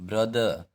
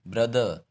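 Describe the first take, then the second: Both takes have the same delivery.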